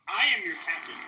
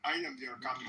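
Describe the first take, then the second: First: Louder, punching I at the start; firm declaration. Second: Low, soft try at a Somali accent; half-hearted Somali accent, then gives up; attempted Somali accent. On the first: Streamer claims the ship from Jay, loud and firm. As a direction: declare it like the new captain. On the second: Streamer trying a Somali accent as the pirate captain. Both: Shown as a demonstration. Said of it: "I can't do a Somali accent".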